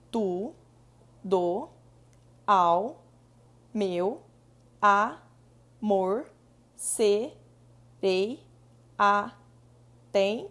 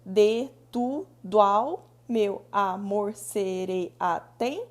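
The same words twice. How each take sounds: First: "tu, do, ao, meu, amor, serei, atento" each word set apart by long pauses and stressed loud; grammatical syllable split. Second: "de, tu, do, ao, meu amor, serei, atento" with "do, ao" and "meu amor" run together as single beats, firm pulse; metric syllable count. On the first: Teacher to students showing grammatical division, slow split syllables. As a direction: tap out each syllable slowly and separately. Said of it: "se eu fosse fazer uma divisão gramatical".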